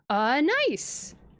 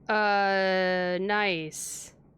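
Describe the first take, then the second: First: It sounds warm and genuinely interested. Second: It sounds flat and sarcastic.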